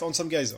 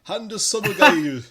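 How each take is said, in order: First: It is said with a French accent. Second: It is said with a Japanese accent. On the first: "je vais le faire avec mon accent en français" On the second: "Je peux te dire la japonaise"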